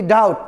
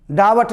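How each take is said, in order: First: डाउट with no b; silent b. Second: डावट with a v in the middle; wrong v sound. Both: Shown as a demonstration. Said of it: "डावट नहीं".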